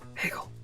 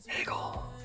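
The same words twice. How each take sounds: First: The word is said in a normal voice. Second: The word is whispered.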